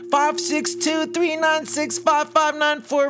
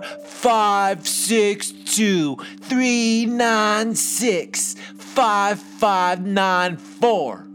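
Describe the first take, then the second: First: It is said at normal speed. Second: It is said slowly.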